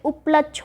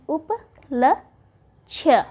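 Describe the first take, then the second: First: Said in the usual way. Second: उपलक्ष्य stretched very slowly syllable by syllable; उपलक्ष्य dragged out with a falling end; drawn-out demo. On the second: Shown as a demonstration. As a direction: model उपलक्ष्य slowly, each sound clear. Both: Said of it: "उपलक्ष्य होता है".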